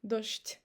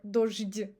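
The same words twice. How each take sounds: First: Дождь said dosht; дождь ending voiceless, sht; correct devoiced ending. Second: Дождь with a voiced zh-d at the end; дождь said wrongly, dozhdi; дождь mispronounced voiced. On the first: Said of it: "We say". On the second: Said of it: "we don't say". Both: Shown as a demonstration.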